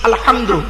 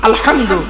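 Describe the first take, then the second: No difference in how they are said.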